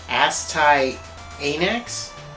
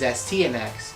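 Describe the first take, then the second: First: The name is split into two parts, Astai Anax. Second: The name is said as one word, Astyanax. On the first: The speaker calls it wrong. "I kind of didn't know how to pronounce the name" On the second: The speaker calls it right. "The proper pronunciation is"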